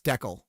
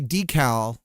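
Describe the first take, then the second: First: It is said the way Canadians say it. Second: It is said the speaker's own usual way.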